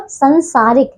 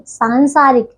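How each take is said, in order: First: संसारिक opening with short "san"; wrong short vowel. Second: सांसारिक opening with long "saan"; correct long vowel. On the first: Teacher showing pupils the error, संसारिक with short a. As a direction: keep the first a of संसारिक short. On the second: Teacher correcting pupils, सांसारिक with long aa. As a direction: stretch the first aa of सांसारिक. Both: Shown as a demonstration. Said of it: "संसारिक नहीं".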